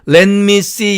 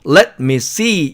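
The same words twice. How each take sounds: First: The consonants blend and the words run together. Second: Each word is said crisply and separately. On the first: The speaker calls it wrong. "우리말처럼 영어는 이 자음 접현을 시키거나 하지 않습니다. 그래서 이거 혹시 읽을 때 let me see 이렇게 읽으면 안 됩니다" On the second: The speaker calls it right. "이런 식으로 정확하게 하나씩 딱딱 떼어서 읽어야 됩니다"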